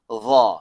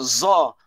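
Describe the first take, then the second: First: The z is a blunt, thick emphatic sound. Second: The z is a sharp, plain English-like z. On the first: The speaker calls it right. "Dia kena bezakan antara tumpul dengan tajam" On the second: The speaker calls it wrong. "Bukannya za"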